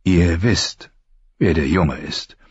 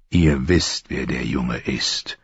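First: Said in the usual way. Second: Patient repetition, sinking low and soft; quietly persistent, voice falling away. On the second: A narrator's reading. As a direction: repeat it patiently, slowing and dropping at the end. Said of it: "wiederholte Ned geduldig".

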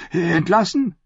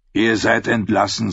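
First: High, disbelieving question; shocked echo. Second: Said in the usual way. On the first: A narrator's reading. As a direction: repeat the word, stunned. Knight echoes in shock.

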